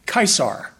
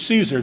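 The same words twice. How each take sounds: First: It begins with a hard K sound. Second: It begins with a soft S sound. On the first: This is how the man himself would have said it. "that's how he would pronounce his name" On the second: This is the modern English way of saying it. "the man we called Julius Caesar"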